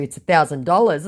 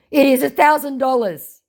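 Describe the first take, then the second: First: Said in the usual way. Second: Higher, louder put-on scammer voice; mock scammer voice. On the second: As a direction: state the price like a smug scammer. Scammer's price quoted.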